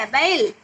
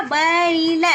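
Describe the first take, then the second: First: बैल said slowly and clearly, with a full open ऐ vowel; careful model pronunciation. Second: Said in the usual way. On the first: Shown as a demonstration. Teacher models बैल for young students, clear and careful. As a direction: spell out बैल for the class, drawing out the ऐ. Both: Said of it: "इस तरह उच्चारण करना होगा आपको".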